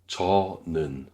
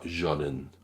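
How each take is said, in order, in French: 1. Il commence par un J léger, sans souffle. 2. Il commence par un son J complet à la française. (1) "léger, simple, sans énergie ex- excessive" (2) "pas jonen"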